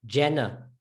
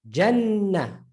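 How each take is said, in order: First: Jannah read English-style with a short single N. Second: Jannah with the N held long; doubled N. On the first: Teacher showing how English speakers would read Jannah, English reading. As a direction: say Jannah with one quick N. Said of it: "Now, if that was English". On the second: Teacher showing Arabic pronunciation of Jannah, doubled N. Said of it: "watch, listen to the N". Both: Shown as a demonstration.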